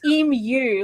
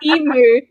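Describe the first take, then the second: First: The word ends with a 'myoo' sound. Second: The word ends with a plain 'moo' sound. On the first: The speaker calls it right. "it's emu like the letter U" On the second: The speaker calls it wrong. "You say emu like a cow"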